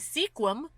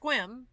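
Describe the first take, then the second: First: The vowel after the first sound is pronounced. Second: The vowel after the first sound is dropped. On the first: The speaker calls it wrong. "what should be Sequim" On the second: The speaker calls it right. "but no, it's Squim"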